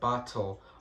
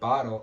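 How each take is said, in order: First: The middle T sounds like a T. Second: The middle T sounds like a D. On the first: "instead of" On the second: "we sometimes will pronounce T's like D's"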